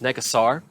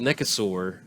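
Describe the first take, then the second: First: The last syllable sounds like 'sar'. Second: The last syllable sounds like 'sore'. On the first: The speaker calls it right. "the correct pron- pronunciation of Nekosaur is Nekosar" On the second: The speaker calls it wrong. "I've called it Nekosaur forever, like a dinosaur"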